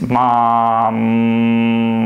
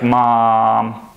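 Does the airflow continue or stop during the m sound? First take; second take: continues; stops. First: The airflow keeps going through the m. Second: The airflow is cut off at the m. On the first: The speaker calls it right. "We don't interrupt the airflow as we close our mouth" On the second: The speaker calls it wrong. "It's not like mom"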